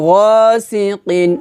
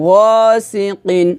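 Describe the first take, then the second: The two takes are said the same way.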